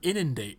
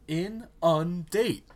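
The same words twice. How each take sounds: First: The stress is on the first syllable. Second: The stress is on the second syllable. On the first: The speaker calls it wrong. "Not inundate" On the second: The speaker calls it right. "you're stressing the second syllable"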